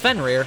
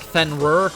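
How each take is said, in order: First: The second syllable sounds like 'rear'. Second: The second syllable does not sound like 'rear'. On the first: This is how it is said in the game. "No, it's it's Fenrir. It's rear" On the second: This is how the speaker assumed it was said. "here I thought it was like Fenrir"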